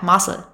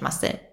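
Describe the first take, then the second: First: The stress is on the first syllable. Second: The stress is on the last syllable.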